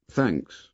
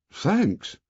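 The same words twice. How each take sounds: First: Said in the usual way. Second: Higher, delighted thanks; pleased surprise. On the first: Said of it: "Then, with an accent of pleased surprise". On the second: A narrator's reading. Ralph thanking the boys for fruit, pleased surprise. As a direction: thank them as if the gift is unexpected. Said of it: "with an accent of pleased surprise".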